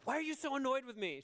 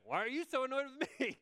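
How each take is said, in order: First: High, quick, indignant question; mock exasperation. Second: Mock-indignant partner, high and fast; imitated exasperated retort. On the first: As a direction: act out a comic marital complaint, pitched up. Acted spat with partner. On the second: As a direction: throw the question back in a comic high voice. Partner fires same question back.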